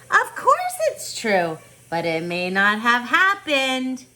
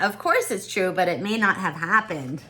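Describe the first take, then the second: First: Grandmother voice. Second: Said in the usual way. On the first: Acted. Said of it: "She'd answer". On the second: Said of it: "What do you think she meant by that".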